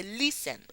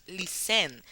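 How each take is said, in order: First: "listen" stressed at the start, LIS-en; stress on first syllable. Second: "listen" with the last syllable stressed, lis-EN; wrong stress. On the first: Teacher correcting listen, stress on first syllable. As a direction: land on "lis" and weaken the rest of "listen". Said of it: "Se dice listen". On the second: Teacher rejecting a wrong pronunciation, stress on the final syllable. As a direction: make the end of "listen" the strong part. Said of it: "no decimos listen". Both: Shown as a demonstration.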